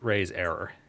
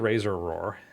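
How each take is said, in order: First: It is said as raise error, with full error. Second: It is said as razor roar, with razor first. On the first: The speaker calls it right. "It's raise error" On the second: The speaker calls it wrong. "It could be razor roar, um, but no"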